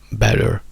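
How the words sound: The ending has an R sound. "better in americano"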